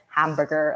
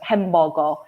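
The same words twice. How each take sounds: First: It is pronounced the English way. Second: It is pronounced the Korean way. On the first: The speaker sounds like they are showing off. "it would definitely sound like you're showing off" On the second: It avoids sounding like showing off. "or like like hamburger"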